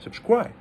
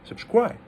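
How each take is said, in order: First: The pitch dips, then falls on the second syllable. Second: The pitch dips, then falls on the second syllable.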